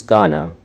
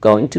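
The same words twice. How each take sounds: First: "gonna" run together as one word; "gonna", the casual reduced form of going to; connected speech. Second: Said in the usual way. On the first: Shown as a demonstration. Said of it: "They connect words together". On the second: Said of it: "They don't pronounce every word clearly".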